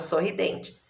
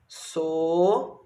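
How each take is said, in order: First: Said in the usual way. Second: Sorridente with long gaps, so... rri... den... te; syllable by syllable. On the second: Shown as a demonstration. Teacher writing the word for pupils, syllable by syllable. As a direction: dictate sorridente one drawn-out syllable at a time. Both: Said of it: "Quantas sílabas tem?".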